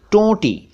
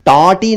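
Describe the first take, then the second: First: टोंटी with rounded "o", high pitch; pure "oh" in टोंटी; correct टोंटी. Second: टोंटी with open "au"; "aw" vowel in टोंटी; mispronounced टोंटी. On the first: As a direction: say टोंटी as "tonti". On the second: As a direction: say टोंटी wrongly as "taunti". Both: Shown as a demonstration. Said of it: "टोंटी नहीं".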